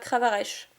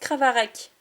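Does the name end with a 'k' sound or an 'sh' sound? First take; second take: sh; k. First: The name ends with an 'sh' sound. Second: The name ends with a 'k' sound. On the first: The speaker calls it wrong. "et pas Cravarèche" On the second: The speaker calls it right. "ça se prononce Cravarec"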